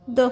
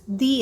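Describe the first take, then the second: First: The vowel is short, like 'thuh'. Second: The vowel is long, like 'thee'. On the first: "with a short sound like do before a consonant sound" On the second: "pronounced as a long the when it comes before a vowel sound"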